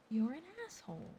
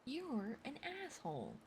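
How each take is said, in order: First: Louder, indignant repeat of "You're an asshole."; louder accusation. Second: Said in the usual way. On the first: Real, not acted. Reacting to Stapleton's plot, louder indignant repeat. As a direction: jab it at the villain harder.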